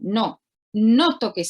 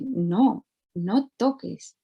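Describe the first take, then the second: First: It is said with a stern, negative intonation. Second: It is said with a warm, positive intonation.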